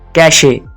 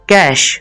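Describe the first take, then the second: First: The word ends with an extra vowel sound. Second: The word ends on the sh consonant. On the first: The speaker calls it wrong. "इसको लोग कहते हैं कैशे" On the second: The speaker calls it right. "Correct pronunciation है वो है कैश"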